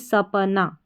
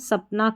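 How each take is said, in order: First: It has three syllables, with a vowel after p. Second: It has two syllables, with no vowel after p. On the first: The speaker calls it wrong. "ना कि सपना। अगर हम सपना बोलते यानी प पे भी जोर देते" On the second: The speaker calls it right. "अब इसका उच्चारण हम सपना कर रहे हैं"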